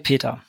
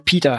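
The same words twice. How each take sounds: First: The name is pronounced with German sounds. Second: The name is pronounced with English sounds.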